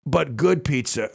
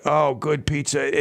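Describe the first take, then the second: First: Said in the usual way. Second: Slow, dreamy relish on good pizza; savoring. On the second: Real, not acted. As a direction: linger over good pizza like a taste memory. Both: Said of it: "It makes me talk about it".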